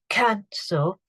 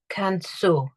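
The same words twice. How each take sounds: First: The stress is on the first syllable. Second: The stress is on the last syllable. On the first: The speaker calls it wrong. "I don't say cancel" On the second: The speaker calls it right. "it is more cancel. So it is the last part that is stressed"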